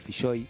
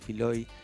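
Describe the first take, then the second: First: The middle consonant is a double-L sound. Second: The middle consonant is a plain single L. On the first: The speaker calls it right. "se escribe con doble L ... es un apellido bien vasco, entonces es Filloy" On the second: The speaker calls it wrong. "algunos le dicen Filoy, mal dicho"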